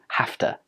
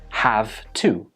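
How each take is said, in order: First: The words run together into one reduced form. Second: Both words are said fully and separately. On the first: "we make it easier for ourselves by changing it to have to" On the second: "it's a contraction of have to"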